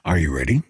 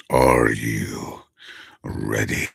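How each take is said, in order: First: Said in the usual way. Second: Villain voice. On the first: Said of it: "my regular voice versus". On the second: Shown as a demonstration. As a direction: drop deep and draw it out like an evil villain. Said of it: "villain voice".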